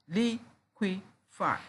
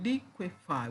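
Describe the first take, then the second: First: "liquefy" slow and higher, in three separate beats; syllable by syllable. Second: Said in the usual way. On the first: Shown as a demonstration. Teacher counting three syllables for students, syllable by syllable. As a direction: leave gaps between all three syllables of "liquefy". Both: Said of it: "We have three syllables there".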